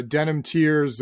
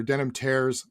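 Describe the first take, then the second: First: Tears rhyming with "fears"; unsure pronunciation. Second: Tears rhyming with "bears"; alternative pronunciation. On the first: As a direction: say Tears as in crying, TEERZ. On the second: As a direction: say Tears as in rips, TAIRZ. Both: Real, not acted. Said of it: "never know how to pronounce that".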